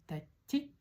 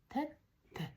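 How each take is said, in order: First: The final vowel is a plain, fuller 'i'. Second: The final vowel is a thinner, softer 'i'. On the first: The speaker calls it wrong. "Не тәтти" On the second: The speaker calls it right. "а тәтті"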